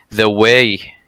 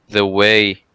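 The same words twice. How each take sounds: The two takes are said the same way.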